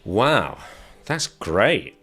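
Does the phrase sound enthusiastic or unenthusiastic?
unenthusiastic. It sounds unenthusiastic, without that positive stress. The speaker is not actually pleased. "a totally different feeling"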